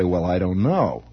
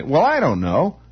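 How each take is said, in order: First: Low "Well, I don't know", weight on "know", falling at the end; closed, falling inflection. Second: "I" lifted in "Well, I don't know", tune rising at the end; open, rising inflection. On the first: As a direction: drop the pitch and let "know" fall away. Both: Shown as a demonstration. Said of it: "all these little inflections have meaning".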